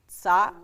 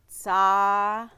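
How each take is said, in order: First: The syllable is said with a glottal stop. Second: The syllable is said without a glottal stop. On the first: "Now let's try it with the glottal stop" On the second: "acting like there's not a glottal stop"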